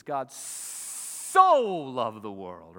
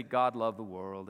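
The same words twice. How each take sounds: First: SO hugely drawn out and loud; stress on SO. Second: Said in the usual way. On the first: Shown as a demonstration. Preacher showing what the verse really says, SO heavily emphasized. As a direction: stretch "so" as long as it will go. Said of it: "I wanna emphasize the word so". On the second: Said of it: "It doesn't just say".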